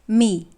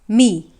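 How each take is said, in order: First: The pitch is low and dipping. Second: The pitch is low and dipping.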